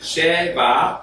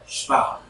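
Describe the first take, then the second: First: A short vowel separates the sh and v. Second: The sh runs straight into the v. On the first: The speaker calls it wrong. "Instead of Sheva" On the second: The speaker calls it right. "it's Shva"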